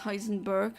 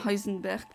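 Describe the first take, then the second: First: The name is said with an English pronunciation. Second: The name is said with a German pronunciation. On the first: This is how the show pronounces it. "they pronounce it as Heisenberg" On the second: This follows the original scientist's German name. "I do pronounce it as Heisenberg because the original scientist was a German"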